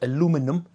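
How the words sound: It is said with an American pronunciation.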